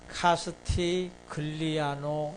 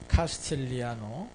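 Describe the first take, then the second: First: The g sound is clearly pronounced. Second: The g sound is silent. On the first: The speaker calls it wrong. "이렇게 하게 되면 써 있는 대로 간 거죠" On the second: The speaker calls it right. "G가 발음이 안 나요"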